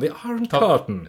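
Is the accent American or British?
British. It is said with a British accent. The speaker calls it right. "men The Iron Curtain"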